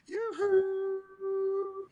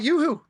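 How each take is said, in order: First: The call is drawn out and held long. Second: The call is short and quick.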